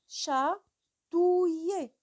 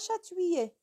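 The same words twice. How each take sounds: First: Separate 'ou' and 'i' sounds are clearly heard. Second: The 'ou' and 'i' sounds are not kept apart. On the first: The speaker calls it right. "C'est chatouiller" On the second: The speaker calls it wrong. "on ne dit pas chatouiller"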